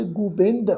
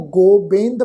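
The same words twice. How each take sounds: First: ਗੋਬਿੰਦ said "gu-bind", with u in the first syllable; short u vowel. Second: ਗੋਬਿੰਦ said "go-bind", with a long o first; long o vowel. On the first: Teacher showing the aunkar reading, ਗੋਬਿੰਦ as "gu-bind". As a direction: say ਗੋਬਿੰਦ as "Gubind". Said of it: "ਔਂਕੜ ਦੀ ਮਾਤਰਾ ਸਹਿਤ ਪਾਠ". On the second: Teacher showing the reading to avoid, ਗੋਬਿੰਦ as "go-bind". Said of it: "ਪਾਠ ਉਚਾਰਨ ਨਹੀਂ ਕਰਨਾ". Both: Shown as a demonstration.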